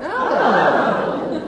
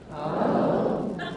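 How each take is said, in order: First: It sounds surprised. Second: It sounds curious.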